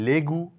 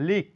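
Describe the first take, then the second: First: A vowel is sounded after the g. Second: No vowel is sounded after the g. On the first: The speaker calls it wrong. "না বলে" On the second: The speaker calls it right. "বলবো"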